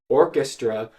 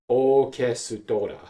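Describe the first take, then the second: First: It is said with English pronunciation. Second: It is said with Japanese pronunciation. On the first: "from English" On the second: "the Japanese loan word"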